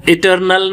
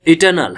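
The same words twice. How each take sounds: First: "इटर्नल" with an audible r before n; incorrect sounded r. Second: "इटर्नल" as i-tuh-nal; silent r. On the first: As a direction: sound the r in "इटर्नल", i-tur-nal. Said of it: "इटर्नल नहीं है". ("इटर्नल" में र बोलकर) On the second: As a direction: leave the r out of "इटर्नल". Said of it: "इटर्नल है". ("इटर्नल" में र के बिना) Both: Shown as a demonstration.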